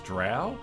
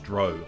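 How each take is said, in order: First: The vowel does not rhyme with 'snow'. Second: The vowel rhymes with 'snow'. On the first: "I pretty much grew up pronouncing them as Drow" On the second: "like as in snow"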